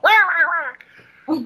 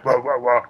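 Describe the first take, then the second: First: It is said in a high voice. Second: It is said in a deep voice.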